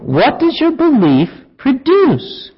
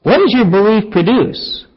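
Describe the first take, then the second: First: Slow, higher, leaning on "does"; pointed question. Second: Said in the usual way. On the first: Shown as a demonstration. Preacher to people he'd confront, slow pointed question. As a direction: put the challenge squarely to them. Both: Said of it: "We ought to ask people".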